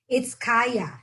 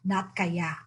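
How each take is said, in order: First: The word is said with conviction. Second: The word is said with a doubtful sound. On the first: We can do it. The speaker calls it right. "it's Kaya with conviction" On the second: Maybe, expressing doubt. The speaker calls it wrong. "when it's Kaya, it means something else... being doubtful"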